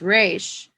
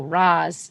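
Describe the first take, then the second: First: The name ends with an 'sh' sound. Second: The name ends with a 'z' sound. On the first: It follows the Hebrew pronunciation. The speaker calls it wrong. "that is wrong and it is racist" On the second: It follows the Arabic pronunciation. The speaker calls it right. "Raz is the correct pronunciation"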